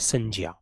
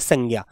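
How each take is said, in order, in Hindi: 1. बीच का व्यंजन 'ज' की ध्वनि है। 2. बीच का व्यंजन 'ग' की ध्वनि है। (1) "वो संज्ञा होता है" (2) "वो संज्ञा शब्द नहीं होता"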